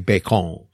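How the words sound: It is said with a Japanese katakana pronunciation. "our students will say bacon"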